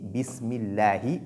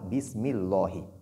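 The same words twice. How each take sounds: First: The L in Allah is said light and thin. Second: The L in Allah is said heavy and emphatic. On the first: The speaker calls it right. "on dit ici Bismillahi" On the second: The speaker calls it wrong. "et non Bismillahi"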